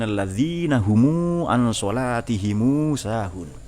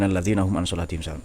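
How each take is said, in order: First: The plural 'm' is followed by a long 'u'. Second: The plural 'm' ends without an added vowel.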